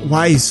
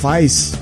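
First: It is not said like the wheat beer name. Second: It is said like the wheat beer name.

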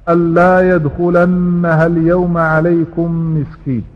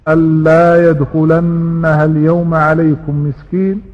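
Both takes have the same delivery.

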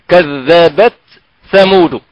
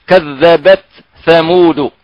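No difference in how they are said.

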